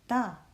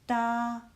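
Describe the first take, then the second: First: The pitch falls sharply from high to low. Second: The pitch stays high and level.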